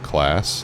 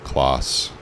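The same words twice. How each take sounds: First: It sounds like the ordinary English word class. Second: It sounds unlike the ordinary English word class. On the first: The speaker calls it wrong. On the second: The speaker calls it right.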